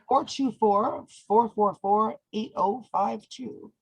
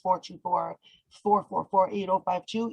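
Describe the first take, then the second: First: The number is said slowly. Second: The number is said fast.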